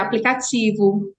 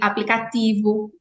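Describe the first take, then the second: First: The t before i sounds like ch. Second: The t before i is a plain t. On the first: "no Sudeste é aplicativo" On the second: "assim que a gente fala, a não palatalização"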